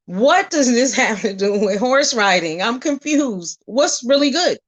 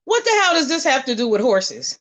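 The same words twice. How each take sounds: First: Breaking into a laugh mid-question; amused, baffled question. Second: Said in the usual way. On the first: Retold or imitated. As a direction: ask it half laughing in disbelief. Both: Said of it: "I was like".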